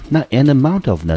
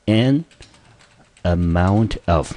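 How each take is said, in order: First: Said in the usual way. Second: "an amount of" drawn out slowly, "amount" stressed; slow model phrase. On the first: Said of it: "repeat of the phrase". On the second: Shown as a demonstration. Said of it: "我们经常看到的一个片语".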